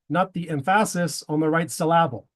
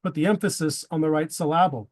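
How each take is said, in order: First: "emphasis" stressed wrongly on its second syllable, em-FA-sis; deliberately wrong stress in "emphasis" and "syllable"; misplaced stress. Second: Said in the usual way. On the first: Shown as a demonstration. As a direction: say "syllable" as sil-LA-ble, stress on the middle.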